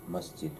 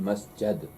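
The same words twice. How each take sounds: First: The vowel before the final d is i. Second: The vowel before the final d is a. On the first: It is the actual irregular form. "is against the rule" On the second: It follows the regular pattern. "if he was to follow the rule, then masjid"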